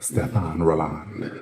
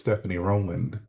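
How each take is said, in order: First: The first name ends without an 'ee' sound. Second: The first name ends with an 'ee' sound. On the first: The speaker calls it right. "I know it's pronounced" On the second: The speaker calls it wrong. "For a while I thought it was"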